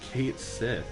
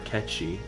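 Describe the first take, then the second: First: It is said as two words, 'Kate Sith'. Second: It is said as one word, 'Ketchi'. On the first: The speaker calls it wrong. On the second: The speaker calls it right.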